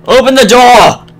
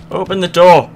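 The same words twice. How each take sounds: First: Loud, high, slowed yell; frustrated yell. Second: Said in the usual way. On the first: Real, not acted. Gamer yelling at a stuck door in a horror game. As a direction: bellow the order in frustration.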